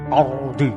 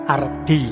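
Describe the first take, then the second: First: The R is pronounced thick and heavy. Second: The R is pronounced thin and light. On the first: The speaker calls it right. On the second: The speaker calls it wrong.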